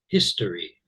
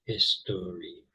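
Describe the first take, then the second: First: Said in the usual way. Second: "history" split slowly into three syllables. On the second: Shown as a demonstration. Teacher counting out syllables for learners, "history" said syllable by syllable. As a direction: break "history" into his-to-ry, each syllable separate. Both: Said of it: "that has three syllables".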